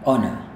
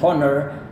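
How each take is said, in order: First: The word starts with a short o sound. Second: The word starts with an h sound. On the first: The speaker calls it right. "Cara Anda melafalkan kata ini gaya British" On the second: The speaker calls it wrong. "jangan bilang honor, tetapi meskipun di Indonesia kita bilang honor"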